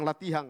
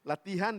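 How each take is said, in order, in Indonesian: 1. Berakhir dengan bunyi ng yang ditambahkan. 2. Berakhir dengan bunyi n biasa.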